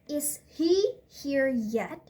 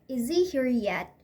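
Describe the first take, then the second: First: The h sound in 'he' is pronounced. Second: The h sound in 'he' is dropped. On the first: "if we use he in sentence" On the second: "can lose their first consonant sound"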